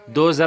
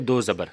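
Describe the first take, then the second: First: The second word is shortened, with a syllable dropped. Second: The second word is said fully with both syllables. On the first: The speaker calls it wrong. "दो ज़र नहीं" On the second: The speaker calls it right. "बल्कि दो ज़बर"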